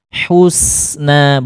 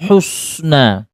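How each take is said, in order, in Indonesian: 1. Bunyi s ringan dan tipis. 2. Bunyi s berat dan tebal. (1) "sinya ditipiskan" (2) "bukan husna"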